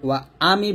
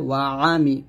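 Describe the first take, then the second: First: The vowel starts with a glottal stop. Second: The vowel starts with a pharyngeal throat sound. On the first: The speaker calls it wrong. "ওয়া আমি বলবেন না, তাহলে হামজার মতো হয়ে যাবে" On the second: The speaker calls it right. "বলতে হবে ওয়া আমি"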